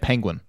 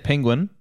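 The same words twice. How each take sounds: First: The first syllable sounds like 'pen'. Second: The first syllable sounds like 'pin'. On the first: The speaker calls it right. "I believe I meant to say penguin" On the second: The speaker calls it wrong. "I say penguin"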